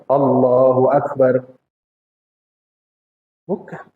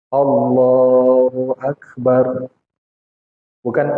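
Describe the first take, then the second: The two takes are said the same way.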